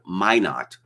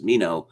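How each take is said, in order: First: The name is given a local American pronunciation. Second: The name is given a French pronunciation. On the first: The speaker calls it right. "someone mentioned Minot. Oh, that's how it's pronounced?" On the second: The speaker calls it wrong. "it's obviously a French name, so it would be pronounced Minot"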